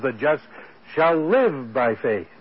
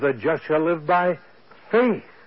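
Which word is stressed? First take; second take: live; faith. First: The word live carries the main stress. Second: The word faith carries the main stress. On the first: The just will truly live by faith. "he puts the emphasis on the life" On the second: It is by faith that the just will live. "puts the emphasis on the faith"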